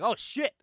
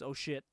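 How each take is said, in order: First: Higher, louder mock outburst; retold cussing. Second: Said in the usual way. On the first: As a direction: blurt it as a character's alarmed curse. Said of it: "He's cussing in Spanish". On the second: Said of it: "That means".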